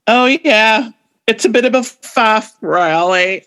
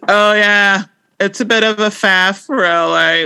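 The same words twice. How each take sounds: First: British accent attempt. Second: Downtrodden British accent attempt. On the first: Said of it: "Speaking of not being able to do an accent, I'm gonna try this". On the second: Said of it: "Like, this is downtrodden".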